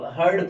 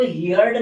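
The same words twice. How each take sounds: First: "heard" as one syllable, HURD; correct "heard" pronunciation. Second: "heard" misread as HEE-urd, like "hear" plus d; mispronounced "heard". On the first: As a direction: say "heard" with an ur vowel and no ee-glide. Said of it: "heard पढ़ना". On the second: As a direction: say "heard" wrongly with an ee-glide, "hee-yard". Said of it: "इसको heard नहीं पढ़ना आपको". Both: Shown as a demonstration.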